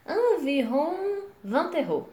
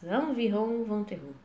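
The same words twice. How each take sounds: First: Slow, higher French model read; slow model phrase. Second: Said in the usual way. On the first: Shown as a demonstration. Teacher modelling a price for students, slow. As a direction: spell it out slowly for the class.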